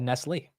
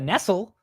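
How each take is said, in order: First: The name is said with the accented final E. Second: The name is said in an anglicized way. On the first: The speaker calls it right. "Because there's the accent over the E" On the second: The speaker calls it wrong. "like like a gringo"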